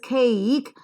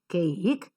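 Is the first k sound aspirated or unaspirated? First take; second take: aspirated; unaspirated. First: The first k has a puff of air. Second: The first k has no puff of air. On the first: The speaker calls it right. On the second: The speaker calls it wrong.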